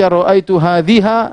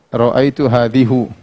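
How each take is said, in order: First: The last word ends in an a vowel. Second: The last word ends in a u vowel. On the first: "jangan baca" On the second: "Jangan kita baca"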